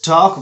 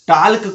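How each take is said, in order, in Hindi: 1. l silent है। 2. l ध्वनित होता है।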